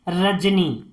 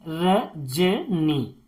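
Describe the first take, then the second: First: Said in the usual way. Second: "Rajni" very slowly in three separate pieces, र, ज, नी; "Rajni" drawn out with a pause after each syllable. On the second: Shown as a demonstration. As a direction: break "Rajni" into र... ज... नी for learners. Teacher splits word into syllables.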